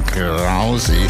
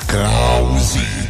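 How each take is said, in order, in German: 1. Die Stimme klingt trocken, ohne jedes Echo. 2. Die Stimme hat einen Echo-Effekt.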